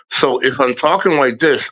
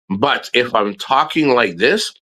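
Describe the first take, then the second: First: Restricted, slightly whistled speech; impeded nerve-locked speech. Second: Said in the usual way. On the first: Shown as a demonstration. Showing viewers when the mask is needed, impeded speech. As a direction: talk with the mouth not opening fully. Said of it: "I wear the mask". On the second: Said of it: "I don't have to wear the mask".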